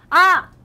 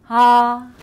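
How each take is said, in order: First: A tight, throaty sound pushed from the chest. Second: A deep, full sound supported from the belly. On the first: The speaker calls it wrong. "제가 형식으로 내면요" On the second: The speaker calls it right. "복식으로 내게 되면요"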